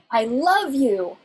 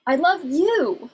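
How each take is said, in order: First: "love" drawn out and emphasized; slow phrase, punching the word "love"; stress on LOVE. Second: "you" lengthened and pitched up, then falling; slow phrase landing hard on "you"; stress on YOU. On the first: Lecturer showing prosodic stress, emphasis on "love". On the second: Lecturer showing prosodic stress, emphasis on "you". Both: Shown as a demonstration. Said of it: "you're emphasizing a different part of that statement".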